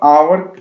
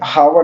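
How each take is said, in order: First: The word starts with a vowel, no h sound. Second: The word starts with a clear h sound. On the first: The speaker calls it right. "ये एच ये silent है तो इसको हम आवर पढ़ेंगे" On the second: The speaker calls it wrong. "हावर नहीं पढ़ेंगे"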